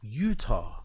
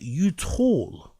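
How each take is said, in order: First: The word is said without an L-like sound. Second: The word is said with an L-like sound. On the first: The speaker calls it right. "I know it's pronounced Utah" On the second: The speaker calls it wrong. "he's pronouncing it Utah"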